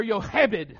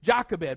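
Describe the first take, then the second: First: Yochebed as in Hebrew, Y not J; Hebrew-style name. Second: Jochebed with a hard J, JOCK-uh-bed; Jochebed Americanised, hard J and flat ah; Southern-accented name. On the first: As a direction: say Yochebed starting on a Y sound, the way it should be pronounced. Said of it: "I will not call her Yochebed". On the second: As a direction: say Jochebed with a J, JAH-kuh-bed, the Appalachian way. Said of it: "the only way that my accent will allow". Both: Shown as a demonstration.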